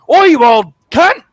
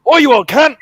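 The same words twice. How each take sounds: First: Loud, high, slow and aggressive; mock-furious Australian yell; angry Aussie shout. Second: Loud, high and aggressive; angry Aussie shout. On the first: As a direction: spit it out at a mate you hate. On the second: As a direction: bark it like you want a fight. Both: Shown as a demonstration. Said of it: "you can probably tell that I'm angry".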